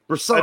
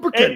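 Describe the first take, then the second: First: The double C is pronounced the Italian way. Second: The double C is pronounced the English way. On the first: "he's Italian, right? That's how they would pronounce the double C" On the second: "I think he's going with the English or the Welsh version of it"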